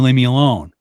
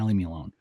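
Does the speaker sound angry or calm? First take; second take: angry; calm. First: It is said sharply, with clear anger. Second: It is said mildly, without anger. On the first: The speaker has lost patience and is provoked. "until they get pissed off ... you can hear the tone change" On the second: The speaker wants to avoid a fight. "I don't want to fight"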